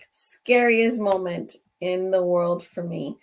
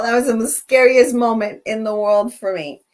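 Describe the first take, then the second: First: Slower reflective repeat. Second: Louder, punching scariest; emphatic. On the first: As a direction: let it sink in, slowly. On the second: Host telling viewers her worst scare, loud and emphatic. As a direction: declare it hard. Reliving the scare, then repeated. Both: Real, not acted.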